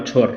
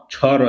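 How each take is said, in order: First: "ছর" blended into one syllable; letters joined. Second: "ছ র" as two separate letters; letters said separately. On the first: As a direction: run ছ and র together as "ছর". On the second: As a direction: say "ছ", then "র" apart. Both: Shown as a demonstration. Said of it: "আর এই দুটোকে আলাদা করব".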